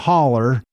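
It is said the Tennessee mountain way.

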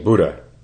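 The word is said with an English pronunciation. "what we do as English speakers, just say Buddha"

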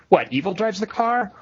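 There is a pause right after the first word. Evil is the thing that drives the car. "there are several different intonations you can do with it"

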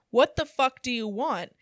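It is said in an angry, commanding tone.

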